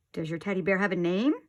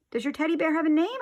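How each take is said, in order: First: Said in the usual way. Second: Higher, louder and faster repeat. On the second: A narrator's reading. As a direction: push it louder so he hears. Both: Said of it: "I said louder".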